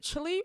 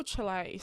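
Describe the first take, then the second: First: "Chile" pronounced CHILL-ee; Chile as "chilly". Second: "Chile" pronounced CHILL-ay; Chile as "chee-lay". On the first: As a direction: end "Chile" on an ee sound. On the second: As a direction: end "Chile" on an ay sound. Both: Shown as a demonstration. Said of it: "Someone needs to tell me".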